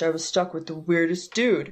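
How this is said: It is read in a put-on male voice. The narrator is a man. The speaker calls it right. "dude voice"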